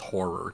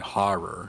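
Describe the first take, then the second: First: The first vowel is an 'or' sound. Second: The first vowel is an open 'ah' sound. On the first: "instead of just horror" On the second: "I opt for saying horror"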